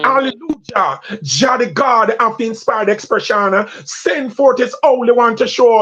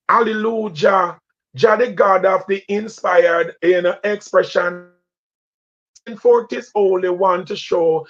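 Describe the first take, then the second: First: It is said faster, with commanding voice. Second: It is said at a regular pace.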